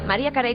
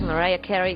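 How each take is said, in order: First: The name is said with Spanish pronunciation. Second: The name is said with English pronunciation. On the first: This is how people in the local country say it. "como decimos en nuestro país" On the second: This is how people in the singer's homeland say it. "como dicen en su tierra"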